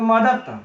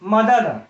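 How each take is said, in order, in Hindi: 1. अंतिम व्यंजन अघोष t है। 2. अंतिम व्यंजन घोष d है। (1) "यहां पर अघोष हो गया" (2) "यहां पर देखिए घोष है"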